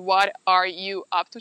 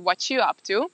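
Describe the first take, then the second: First: Every word is said, including 'are'. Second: The word 'are' is left out. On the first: "nem ejtik ki azt" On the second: "csak azt"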